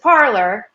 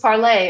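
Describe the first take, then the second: First: The name ends with an 'or' sound. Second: The name ends with an 'ay' sound. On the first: This is how many local people say it. "a lot of people around here just pronounce it parlor" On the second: This is the original intended pronunciation. "It was Parlay originally"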